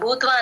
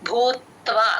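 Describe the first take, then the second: First: The v sound after t is faint. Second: The v sound after t is clearly heard. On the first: The speaker calls it wrong. "భూత్వ అనేకూడదు" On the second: The speaker calls it right. "తా కింద వావొత్తు clear గా వినిపించాలి"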